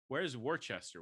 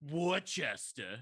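First: The name is read out syllable by syllable. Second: The name is shortened to two short syllables. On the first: The speaker did not know the local pronunciation. The speaker calls it wrong. "I kept going" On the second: This is how locals say the name. The speaker calls it right. "And the guys are like"

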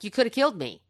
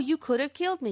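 First: It sounds like an accusation. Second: It sounds grateful and relieved.

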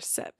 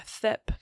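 First: The s is said clearly, with no lisp. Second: The s is said with a lisp, like th.

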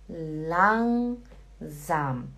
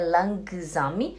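First: The ng is said as one nasal sound. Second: The g after the n is clearly pronounced. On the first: The speaker calls it right. "é langsam" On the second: The speaker calls it wrong. "Não é langsam"

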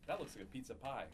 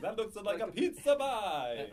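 First: It is said in the speaker's plain accent. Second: It is said in a cartoon Italian accent.

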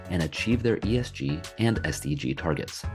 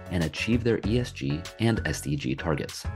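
The two takes are said the same way.

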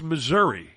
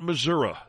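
First: The name is said with its standard pronunciation. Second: The name is said with an altered pronunciation. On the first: The speaker calls it right. "It's Missouri" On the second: The speaker calls it wrong. "It's not Missouri. Never has been, never will be"

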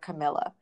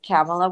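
First: The name does not rhyme with Pamela. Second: The name rhymes with Pamela. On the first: The speaker calls it wrong. "I've been mispronouncing her name and calling her Camela" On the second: The speaker calls it right. "It's pronounced like Pamela, except with a C"

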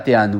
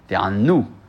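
First: The middle consonant is single. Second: The middle consonant is doubled. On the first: It means to answer. The speaker calls it wrong. "parce que Teranu, c'est répondre" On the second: It means to make oneself suffer. The speaker calls it right. "là-bas, on met un dagesh"

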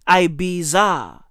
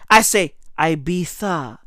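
First: The middle consonant is not a 'th' sound. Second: The middle consonant is a 'th' sound.

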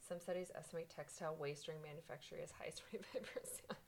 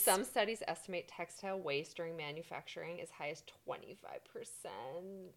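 First: It is said at normal volume. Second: It is said louder.

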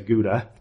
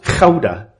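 First: It is said with an American English pronunciation. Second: It is said with a Dutch pronunciation. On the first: "Americans say Gouda cheese" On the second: "It's actually pronounced Gouda. That's the way you really pronounce it"

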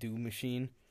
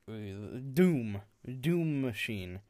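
First: The name is said quickly, run together. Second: The name is said slowly and deliberately. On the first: The speaker calls it wrong. "it sounds weird if you say it really fast" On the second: The speaker calls it right. "I make sure to say it deliberately"

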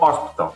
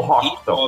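First: The h at the start is dropped. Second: The h at the start is pronounced.

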